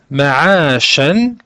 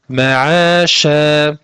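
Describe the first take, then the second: First: The word ends with a short vowel and n. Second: The word ends with a lengthened vowel, no n. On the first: The reciter continues without stopping on this word. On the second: The reciter stops on this word.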